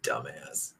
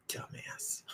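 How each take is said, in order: First: Dumbass dropped very low and soft; deep mock voice. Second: Breathy whispered Dumbass; whispered insult. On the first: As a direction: growl Dumbass in a low goofy voice. Repeats insult in new voice. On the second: Pretend. Muttered insult after joke.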